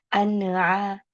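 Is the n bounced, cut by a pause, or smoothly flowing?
bounced. The n is bounced with a little echo. The speaker calls it wrong. "Contoh yang mantul"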